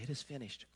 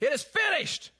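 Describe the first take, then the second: First: It is said softly. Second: It is said loudly.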